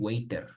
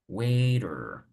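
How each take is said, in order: First: It is said with a Spanish-style R sound. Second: It is said with an American English R. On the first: The speaker calls it wrong. "that is Spanish pronunciation" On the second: The speaker calls it right. "you need to make an effort to say waiter"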